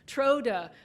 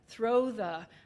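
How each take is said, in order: First: They use t and d sounds instead of th. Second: They use th sounds. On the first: It marks a Yooper or French Canadian way of speaking. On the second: It is the standard form.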